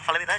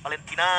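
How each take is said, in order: First: The name is said short and plain. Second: The name is said with a stretched intonation. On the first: The speaker calls it right. "Valentina aja" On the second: The speaker calls it wrong. "gak usah Valentina gitu"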